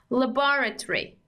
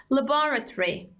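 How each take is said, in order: First: It is said in a British accent. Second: It is said in a British accent.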